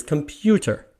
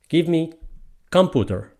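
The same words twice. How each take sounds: First: Said in the usual way. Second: "computer" as COM-pu-ter, stressed on the first syllable; front-stress "computer" in broken English; wrong stress on COM. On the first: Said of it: "The word is computer". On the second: Acted. Teacher imitating a wrong request, COM-puter. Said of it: "That is wrong".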